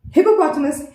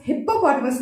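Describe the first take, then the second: First: "हिपोपोटामस" said as "hi-po-potamus"; one light p starting "हिपोपोटामस"; single p. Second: "हिप्पोपोटामस" split as "hip-popotamus"; wrong example, double-p "हिप्पोपोटामस"; doubled p. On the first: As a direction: model "हिपोपोटामस" without doubling. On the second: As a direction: hold the first p in "हिप्पोपोटामस". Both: Shown as a demonstration. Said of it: "हिप्पोपोटामस नहीं".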